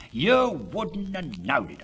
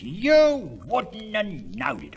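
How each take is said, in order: First: Said in the usual way. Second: "You wouldn't have knowed it" drawn out slow and louder; emphatic repeat. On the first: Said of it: "repeated for emphasis". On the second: Shown as a demonstration. Boasting about the tidied garden, slow and emphatic. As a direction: lean hard on every word of "You wouldn't have knowed it". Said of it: "repeated louder, slower".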